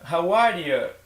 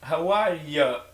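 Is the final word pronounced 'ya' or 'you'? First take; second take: ya; ya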